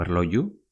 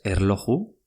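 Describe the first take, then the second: First: "erloju" with a y sound for j; second pronunciation variant. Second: "erloju" with a Spanish jota; first pronunciation variant. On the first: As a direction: say "erloju" as "erloyu". ("erloju" con la jota pronunciada como ye) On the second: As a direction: say the j of "erloju" as a throaty h. ("erloju" con jota castellana) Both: Shown as a demonstration. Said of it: "o erloju".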